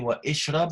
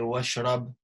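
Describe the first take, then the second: First: A separate vowel is voiced before 'shrab'. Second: The vowel is dropped, linking 'wa' to 'shrab'. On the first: "are we going to say wa ishrab" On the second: "or are we going to say wa shrab?"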